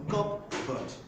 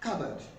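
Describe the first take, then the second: First: The P sound is pronounced in the middle. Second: The middle has no P sound. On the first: The speaker calls it wrong. "Most people would pronounce this as a cupboard" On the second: The speaker calls it right. "But the P is um, silent"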